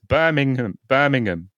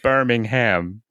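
First: It is said with a British pronunciation. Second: It is said with an American pronunciation. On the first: The speaker calls it right. "It's Birmingham" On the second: The speaker calls it wrong. "every time an American will say like Birmingham, I weep. It's not Birmingham"

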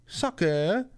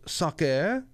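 First: It is said in a French accent. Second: The same.

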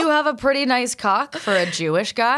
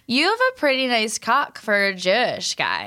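First: It is said in a plain normal voice. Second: It imitates her voice, like an SNL Californian.

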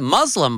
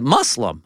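First: The middle consonant is a buzzing Z sound. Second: The middle consonant is a soft S sound. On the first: The speaker calls it wrong. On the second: The speaker calls it right. "like with a soft S, not the Z"

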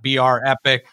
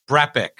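First: Two letters are spelled out before 'epic'. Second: The name is said as one smooth word. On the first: The speaker calls it wrong. "It's not BR Epic" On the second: The speaker calls it right. "And am I pronouncing it right?"

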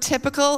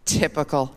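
First: The word is said in a plain, neutral tone. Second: The word is said in a scornful, exasperated tone. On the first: The word simply means ordinary. "when we use the word typical" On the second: The thing is dull and predictably disappointing. "it sounds like typical. Complete with the involuntary eye roll"

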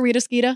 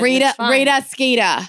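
First: The name is said in a plain accent. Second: The name is said in a Boston accent.

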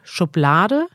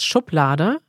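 First: The stress is not on the first syllable. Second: The stress is on the first syllable. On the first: The speaker calls it wrong. "aber das ist dann die polnische Aussprache" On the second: The speaker calls it right. "Betonung auf der ersten Silbe"

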